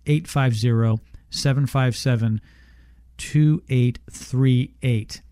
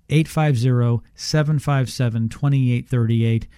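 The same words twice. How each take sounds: First: The number is read slowly. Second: The number is read at normal speed.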